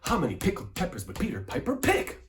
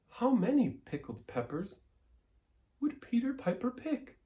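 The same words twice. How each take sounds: First: It is said forcefully with strong energy. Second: It is said in a high head voice. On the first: "I'm forced" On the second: "in a high voice. up here in our head voice"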